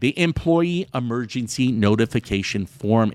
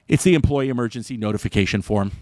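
First: It is said slowly. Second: It is said fast.

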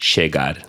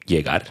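First: It is said with an Argentine pronunciation. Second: It is said with a Mexican pronunciation.

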